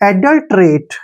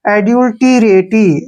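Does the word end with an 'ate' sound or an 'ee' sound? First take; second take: ate; ee. First: Said as 'adult-rate', ending in an 'ate' sound. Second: Every letter is voiced, ending in an 'ee' sound. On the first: The speaker calls it right. "देखिए एडल्ट रेट, क्या पढ़ेंगे इसको?" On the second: The speaker calls it wrong. "Beginners ... इसको बोलते हैं एड्यूल्टीरेटी, ठीक है ना, जो कि गलत है"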